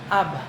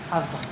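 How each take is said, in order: First: The middle consonant is a b sound. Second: The middle consonant is a v sound.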